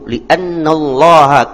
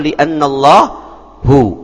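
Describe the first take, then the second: First: The final vowel is 'a'. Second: The final vowel is 'u'. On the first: The speaker calls it right. "pakai ha" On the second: The speaker calls it wrong. "atau li'annallahu"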